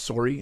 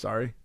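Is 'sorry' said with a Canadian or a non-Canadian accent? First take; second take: Canadian; non-Canadian. First: It is said with a Canadian accent. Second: It is said without a Canadian accent. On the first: "He's Canadian, yeah? That's why he says sorry" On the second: "instead of sorry"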